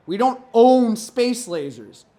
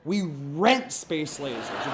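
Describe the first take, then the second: First: "own" drawn out and loud; slow denial, leaning hard on "own"; stress on OWN. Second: "rent" drawn out, pitch dropped low; slow, lower correction leaning on "rent"; stress on RENT. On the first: Comedian rebutting the space laser myth, stress on "own". Punchline corrects own to rent. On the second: Comedian correcting the space laser myth, stress on "rent". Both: Acted.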